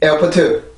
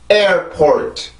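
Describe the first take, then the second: First: It has extra even syllables, Korean style. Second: It has two stressed-rhythm syllables, English style. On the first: The speaker calls it wrong. "절대 에어포트, 에어포트 이런 게 아닙니다" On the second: The speaker calls it right. "이 단어는 그렇게 발음을 해주시면 돼요"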